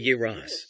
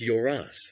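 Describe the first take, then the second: First: The first vowel is a 'ye' sound. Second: The first vowel is an unstressed 'yo' sound. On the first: This avoids a stressed 'yo' that a Russian speaker would add. "That's why I say Yeras" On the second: This is how the local language says the name. "In Turkish, it is pronounced Yoras"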